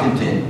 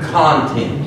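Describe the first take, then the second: First: The stress is on the second syllable. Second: The stress is on the first syllable. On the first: It means being satisfied. The speaker calls it wrong. "Not content, not being content" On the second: It means what is contained inside. The speaker calls it right. "but the content. As in contents and composition"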